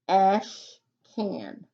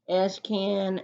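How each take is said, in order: First: "Ash can" with a long gap between the parts; split into syllables. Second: Said in the usual way. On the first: Shown as a demonstration. Teacher showing the digraph stays in the first syllable, split into syllables. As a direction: ASH louder, pause, then "can" falling away. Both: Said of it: "the digraph needs to go with the first syllable".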